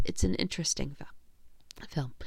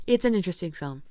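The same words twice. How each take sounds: First: "film" cut by a hiccup. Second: Said in the usual way. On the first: Real, not acted. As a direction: say "it's an interesting film" through a hiccup. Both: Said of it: "I'm, like, hiccuping".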